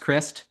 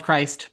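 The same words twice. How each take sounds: First: "Christ" said as "Krist", short i as in "wrist"; short-i name pronunciation. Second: "Christ" with a long i, as in "ice"; long-i spelling pronunciation. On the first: Candidate correcting host on his name, "Christ" said "Krist". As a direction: say "Christ" with a short i, rhyming with "list". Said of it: "pronounced Christ". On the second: Candidate showing host how his name is spelled, "Christ" with long i. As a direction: say "Christ" like the religious name, rhyming with "sliced". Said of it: "spelled Christ". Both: Shown as a demonstration.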